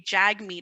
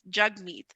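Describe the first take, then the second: First: The first syllable rhymes with bag. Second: The first syllable rhymes with mug. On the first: The speaker calls it wrong. "a lot of people say" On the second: The speaker calls it right.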